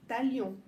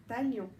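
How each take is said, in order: Both takes have the same delivery.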